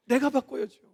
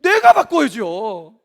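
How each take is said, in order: First: Said in the usual way. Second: Slow, loud 내가 바꿔야죠 with 내가 leaned on; 내가 바꿔야죠 drawn out, 내가 stressed and falling; slow emphatic answer. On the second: Shown as a demonstration. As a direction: answer the question slowly and firmly. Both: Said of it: "내가 바꿔야겠어요?".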